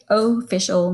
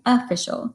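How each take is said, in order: First: The first vowel is a full, clear vowel. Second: The first vowel is a weak uh sound. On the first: The speaker calls it wrong. "We don't say official normally" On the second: The speaker calls it right. "We say official. So think of that as a schwa"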